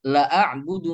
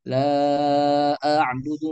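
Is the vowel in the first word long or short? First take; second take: short; long. First: The vowel in the first word is cut short. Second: The vowel in the first word is held long. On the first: Indeed I worship what you worship. The speaker calls it wrong. "La-nya dibaca pendek" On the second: I do not worship what you worship. The speaker calls it right. "kita membaca"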